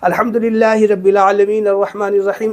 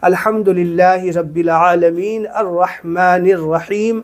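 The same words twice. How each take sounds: First: It is recited quickly without pauses. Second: It is recited slowly with pauses.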